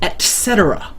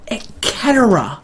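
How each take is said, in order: First: The middle consonant is an s sound. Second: The middle consonant is a hard k sound. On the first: This is the usual way people say it. The speaker calls it right. "Surely people still use that word enough to say no, it's et cetera" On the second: This is a made-up joke version. The speaker calls it wrong. "What the hell is Eketera?"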